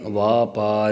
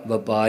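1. ਪਹਿਲਾ ਸਵਰ ਲੰਮਾ ਹੈ। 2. ਪਹਿਲਾ ਸਵਰ ਛੋਟਾ ਹੈ। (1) "ਪਰ ਕੰਨਾ ਲੱਗਾ ਹੈ" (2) "ਕਈ ਵਾਰੀ ਅਸੀਂ ਕਾਹਲੀ ਵਿੱਚ ਪਾਠ ਵਪਾਰ ਹੀ ਕਰ ਜਾਂਦੇ ਹਾਂ"

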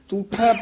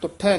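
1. ਪਹਿਲਾ ਸਵਰ ਲੰਬਾ u ਹੈ। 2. ਪਹਿਲਾ ਸਵਰ ਛੋਟਾ u ਹੈ। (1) "ਇਹਨੂੰ ਦਲੈਂਕੜ ਦੇ ਨਾਲ ਉਚਾਰਨ ਕਰਨਾ ਹੈ" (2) "ਤੁਠਾ ਨਹੀਂ ਕਹਿ ਦੇਣਾ"

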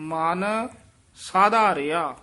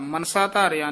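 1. ਸ਼ਬਦ 'man' ਅਤੇ 'saadhaaria' ਵਿੱਚ ਵੰਡੇ ਗਏ ਹਨ। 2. ਸ਼ਬਦ 'mansa' ਅਤੇ 'dhaaria' ਵਿੱਚ ਵੰਡੇ ਗਏ ਹਨ। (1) "ਨਖੇਰ ਕੇ ਪੜਨਾ ਹੈ" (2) "ਮਨਸਾ ਧਾਰਿਆ ਨਹੀਂ ਕਹਿਣਾ"

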